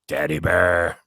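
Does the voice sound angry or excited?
angry. It is said in an angry tone.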